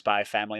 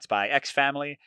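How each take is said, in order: First: The title is said without the middle X. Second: The title is said with the middle X. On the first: The speaker calls it right. "you don't pronounce the X in the middle" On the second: The speaker calls it wrong. "not Spy X Family"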